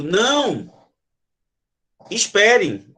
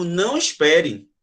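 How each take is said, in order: First: "Não," called out, then a long pause before "espere"; calling someone back as they leave, "Não," pause, "espere"; pause after não. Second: "Não espere" said slowly in one breath; unbroken, slow "Não espere"; one slow phrase "Não espere", with no comma break; no pause. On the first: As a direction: halt them: "Não," beat, "espere". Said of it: "alguém tá indo embora e eu digo". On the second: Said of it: "Consegue entender a entonação?". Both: Shown as a demonstration.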